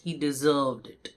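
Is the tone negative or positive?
negative. It is said in a disapproving, negative tone. The person got the bad outcome they earned. "मैं negatively बोल रही हूँ, मेरा tone ये indicate करता है"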